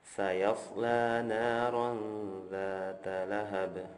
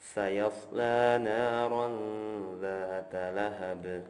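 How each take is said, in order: No difference in how they are said.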